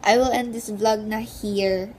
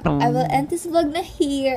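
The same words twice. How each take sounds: First: Said in the usual way. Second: Taglish konyo drawl on "I will end this vlog na here"; slow posh Manila konyo English, "vlog" stressed; konyo accent. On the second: Shown as a demonstration.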